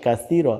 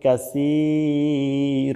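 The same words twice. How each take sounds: First: The word ends on the r sound. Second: The word ends with a vowel after r. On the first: The reciter stops at this word. "কাসীর বলে যদি থামেন তাহলে হবে কাসীর" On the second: The reciter continues without stopping. "আর যদি না থামেন তাহলে আপনার বলতে হবে কাসীর"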